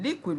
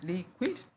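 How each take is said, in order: First: Said in the usual way. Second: "liquid" in two beats with a rising end; split into syllables. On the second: Shown as a demonstration. Teacher showing two syllables, split into syllables. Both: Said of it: "we have two syllables".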